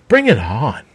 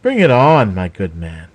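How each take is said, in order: First: Mocking rise at the end; sneering taunt. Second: Loud, falling taunt thrown at him; sneering challenge. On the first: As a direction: toss it back as a lilting dare. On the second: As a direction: spit the challenge out louder with scorn. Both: A narrator's reading. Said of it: "Raven sneered".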